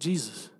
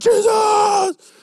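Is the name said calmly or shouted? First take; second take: calmly; shouted. First: The name is said calmly and softly. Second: The name is shouted loudly and urgently.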